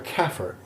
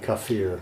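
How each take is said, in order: First: It is pronounced with a Southern American accent. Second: It is pronounced in a more Arabic way. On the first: "all my Arabic pronunciations are dreadfully southern" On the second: "I think they say kafir"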